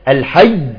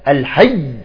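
The two takes are said the same way.

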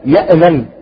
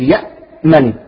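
First: The hamza is released with a bounce. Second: The hamza is held closed without release. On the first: The speaker calls it wrong. "بعضهم كما ذكرت أختنا من هدى يقلقلها" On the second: The speaker calls it right. "الهمزة الساكنة تحبس"

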